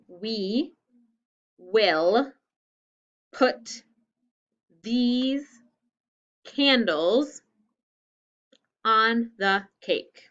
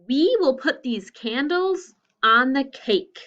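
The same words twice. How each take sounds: First: The sentence is said at a slower pace. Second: The sentence is said at a normal pace.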